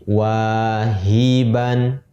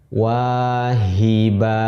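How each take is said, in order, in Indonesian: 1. Kata ini berakhir dengan bunyi n. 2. Kata ini berakhir dengan vokal panjang. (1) "Kita baca menjadi wahiban" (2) "Kita wakafkan wahiba. ... seolah-olah si tanwin fathahnya hilang menjadi fathah biasa dan dibaca panjang"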